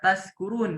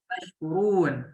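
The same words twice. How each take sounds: First: The word is said with a plain 's' sound. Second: The word is said with an 'sh' sound. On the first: You become drunk. The speaker calls it wrong. "huruf sa semuanya dibaca sa aja gitu ya" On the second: You become grateful. The speaker calls it right. "pakai huruf shin ya sobat ya, yang ada titiknya"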